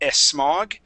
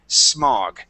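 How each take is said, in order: First: A short e vowel comes before the s. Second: The word begins directly with the s. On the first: The speaker calls it wrong. "instead of saying smog" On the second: The speaker calls it right. "I want you to say smog"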